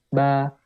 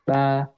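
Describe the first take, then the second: The two takes are said the same way.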